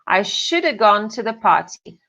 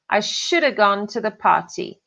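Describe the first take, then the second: No difference in how they are said.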